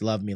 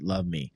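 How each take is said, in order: First: The two words run together without a break. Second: A short break separates the two words. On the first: It is a request to be loved. "like you're asking" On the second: It is a sign-off at the end of a note. "wrote a note and it just said"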